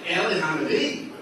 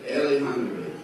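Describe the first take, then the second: First: "Eli Hanavi?" asked through a laugh, with a rising question; amused, can't-believe-it echo; laughing disbelief. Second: Said flatly and seriously, falling at the end; deadpan, totally in earnest; serious statement. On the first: Real, not acted. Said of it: "And I'm laughing". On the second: Retold or imitated. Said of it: "And he's not laughing".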